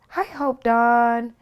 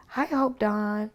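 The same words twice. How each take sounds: First: Slow, high sing-song greeting, louder; Michael's sing-song. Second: Michael's sing-song. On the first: Michael answering her phone call, slow and sing-song. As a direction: stretch the name out like a little tune. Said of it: "has a way of sing-songing". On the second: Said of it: "so he says". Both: Retold or imitated.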